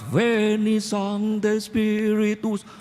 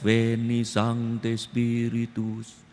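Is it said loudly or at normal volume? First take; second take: loudly; normal volume. First: It is said loudly. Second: It is said at normal volume.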